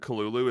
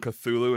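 First: The name is said with no T or TH sound. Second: The name is said with a T or TH sound. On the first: This follows the creator's own note. The speaker calls it right. "you're not supposed to pronounce the T" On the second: This is the more modern way of saying it. The speaker calls it wrong. "The people calling him Cthulhu instead of Kalulu is actually a more modern take"

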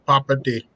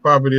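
First: It is said with a Filipino accent. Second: It is said with a standard American accent. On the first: "this accent that ... they say property" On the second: "instead of saying property"

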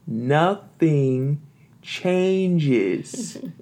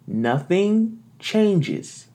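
First: The words are said at a slow pace. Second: The words are said at a normal pace.

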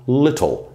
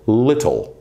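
No difference in how they are said.

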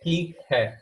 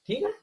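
First: It is said with a normal, level intonation. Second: It is said with a rising, questioning intonation.

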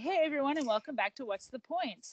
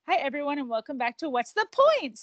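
First: The pitch stays level and normal at the end. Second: The pitch goes higher on the show name.

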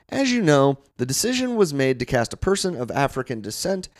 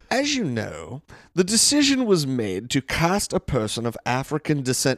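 First: It is read in the speaker's normal accent. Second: It is read in a put-on British accent.

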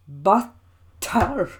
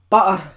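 First: The word is said in standard English pronunciation. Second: The word is said in Scots pronunciation. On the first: The speaker calls it right. "it's butter" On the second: The speaker calls it wrong. "not butter"

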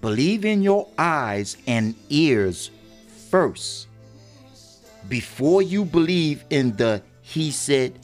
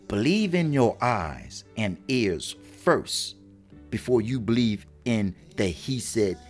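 First: The sentence is said slowly and deliberately. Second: The sentence is said at a normal speed.

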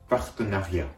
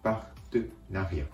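First: The word is said smoothly without breaks. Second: The word is broken into separate syllables. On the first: "続けると" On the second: "音節ごとに切って"

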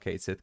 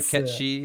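First: It is said as two words, 'Kate Sith'. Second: It is said as two syllables, 'ketchy'. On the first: The speaker calls it wrong. "A lot of Americans I know call it Kate Sith, because that looks like that's how it's spelled" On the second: The speaker calls it right. "Ketchy is how you pronounce it"

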